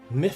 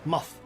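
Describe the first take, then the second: First: The word is said in an Australian accent. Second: The word is said in a New Zealand accent. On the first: "for Australians" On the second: "for New Zealanders"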